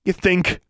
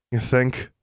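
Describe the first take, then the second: First: High, snappy sarcasm; quick sarcastic girl; sarcastic retort. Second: Frustrated sarcasm. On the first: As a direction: fire it back without thinking. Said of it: "Alexandra retorted". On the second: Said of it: "frustrated and sarcastic". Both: A narrator's reading.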